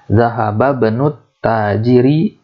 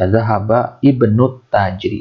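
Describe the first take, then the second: First: The vowel before bnu is dropped and linked. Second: The vowel before bnu is clearly pronounced. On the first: The speaker calls it right. "Ada di tengah di sini, maka dia tidak dibaca" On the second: The speaker calls it wrong. "Boleh saja, tapi kurang fasih"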